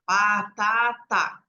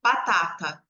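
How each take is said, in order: First: Very slow, dragged-out syllables; child slowly sounding out batata; slow drawn-out reading. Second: Batata said at once, lower and smooth; child reading batata fluently after pausing; whole word after thinking. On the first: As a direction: stretch the word out like a hesitant reader. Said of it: "a criança lê em voz alta". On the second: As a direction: read batata as one quick word after a pause. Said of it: "Daí ela demora um tempo, pensa". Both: Shown as a demonstration.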